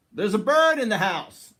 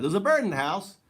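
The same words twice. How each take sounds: First: Startled cry, higher and louder; surprised exclamation. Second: Replaying the startled cry, higher and louder, with a rising end; retold surprised exclamation. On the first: Retold or imitated. Retelling seeing a wren fly into the house, startled cry. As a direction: blurt it out as the bird flies past. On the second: Insisting to viewers those were his words, surprised cry. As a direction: echo the moment you spotted the bird, still amazed. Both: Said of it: "Literally, I said that".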